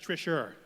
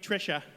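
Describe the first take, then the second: First: The name ends with an added r sound. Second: The name ends in a plain vowel.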